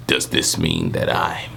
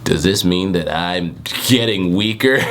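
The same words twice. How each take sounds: First: Much lower, slow gruff growl; deep Kenpachi voice. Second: Only lightly voiced, slow question; a hint of an old sage; plain-ish Jiraiya voice. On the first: Acted. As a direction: drop way down into a heavy growl. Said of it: "You know how Kenpachi talks". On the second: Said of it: "he's Jiraiya, right?".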